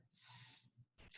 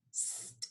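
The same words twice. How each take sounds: First: S and T with a gap between; separate sounds. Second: S joined directly to T as st; blended sounds. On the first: Teacher leading the class to say it, sound by sound. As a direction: sound out S, then T. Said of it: "instead of saying them one by one". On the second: Teacher leading the class to say it, blended as st. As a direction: run S into T as one sound. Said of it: "mix them together super quickly". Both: Shown as a demonstration.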